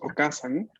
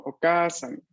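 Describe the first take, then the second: First: The vowel after k is kept short. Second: The vowel after k is held long. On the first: It means aunt. "si la pronunciamos sin la doble, sin la doble vocal" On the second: It means mother. "aquí vemos bien claro la doble vocal"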